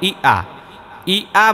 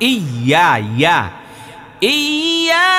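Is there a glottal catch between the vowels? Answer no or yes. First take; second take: yes; no. First: The vowels are split by a glottal catch. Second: The vowels are joined by a smooth y-glide. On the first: The speaker calls it wrong. "অনেকে ই আ বলে তো হামজা হয়ে যাবে" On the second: The speaker calls it right. "এটা কিন্তু ইয়া"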